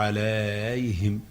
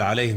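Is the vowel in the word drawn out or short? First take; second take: drawn out; short. First: A vowel is stretched far beyond normal length. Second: The vowels are held at normal length. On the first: "بيقولها بقى براحته كده" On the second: "بدل ما يقول عليهم"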